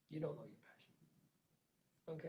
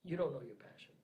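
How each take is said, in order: First: Much softer, slow, lower; hushed repeat. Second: Said in the usual way. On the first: Real, not acted. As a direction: let it sink in, almost under your breath. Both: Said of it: "Until you can say that sentence".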